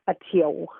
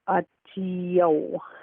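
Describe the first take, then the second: First: The word is said quickly and fluently. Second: The word is said slowly and carefully. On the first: "the fluent pronunciation" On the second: "the slow pronunciation"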